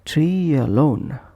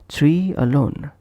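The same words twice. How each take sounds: First: A soft y sound links the two words. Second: The two words are joined without a y sound. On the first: The speaker calls it right. "Just a soft Y added in between" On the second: The speaker calls it wrong. "Pronounced as tree alone. But instead"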